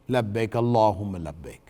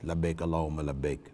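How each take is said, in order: First: It is said audibly, in a clear voice. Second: It is said quietly, under the breath.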